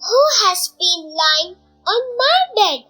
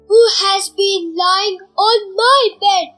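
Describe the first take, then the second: First: It is said in a medium voice. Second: It is said in a very loud voice.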